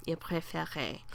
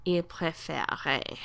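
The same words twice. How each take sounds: First: Whispered softly as an echo. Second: Said in the usual way. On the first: Shown as a demonstration. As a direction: breathe it out as a quiet whisper. Teacher repeats the form.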